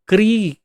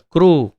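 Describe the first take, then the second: First: The k-r is followed by an ee vowel. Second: The k-r is followed by an oo vowel. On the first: "कुछ जगहों पर क्री उच्चारण होता है" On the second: "गुजरात में और उड़ीसा में क्रू उच्चारण होता है"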